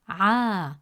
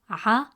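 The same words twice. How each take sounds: First: The vowel is stretched long. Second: The vowel is short. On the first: The speaker calls it right. "the presence of alif makes it a" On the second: The speaker calls it wrong. "Instead of pronouncing it as a"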